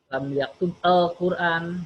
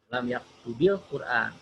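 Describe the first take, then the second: First: Yaktub ends without a vowel before al-Quran. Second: An 'i' vowel links yaktub to Quran. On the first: The speaker calls it wrong. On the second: The speaker calls it right. "makanya dikasrohkan"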